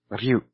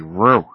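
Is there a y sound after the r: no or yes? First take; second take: yes; no. First: A lightly rolled r is followed by a clear y. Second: The r goes straight into u with no y. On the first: The speaker calls it right. "roll your R a little bit. Emphasize the Y" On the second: The speaker calls it wrong. "A lot of people will say ru"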